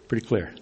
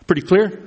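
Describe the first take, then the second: First: Falling tune, softer and lower on "Pretty clear."; answering. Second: Rising question tune on clear; asking. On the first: Preacher answers his own question with a low falling "Pretty clear.". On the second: Preacher checks the room with a rising "Pretty clear?". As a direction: lift "clear" into a question to the congregation. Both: Shown as a demonstration.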